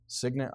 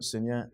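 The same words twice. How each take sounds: First: Signet with a hard g, "SIG-nit"; dictionary pronunciation. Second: Signet with a silent g, "sin-yet"; unsure pronunciation. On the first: Reader trying a suggested reading, signet as "SIG-nit". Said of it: "I've heard that before". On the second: Reader asking the room how to say it, signet as "sin-yet". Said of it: "How do you say that?". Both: Shown as a demonstration.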